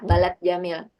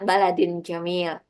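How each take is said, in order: First: The first word ends abruptly on a t sound. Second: The first word ends with an added -in. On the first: The speaker calls it wrong. "balat jamil itu kan nggak enak" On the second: The speaker calls it right. "makanya dia dibacanya baladin jamil"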